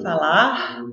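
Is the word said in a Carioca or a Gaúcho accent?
Carioca. It is said in a Rio Carioca accent. This is an accent adopted after moving to a new place. "elas ficam falando falar"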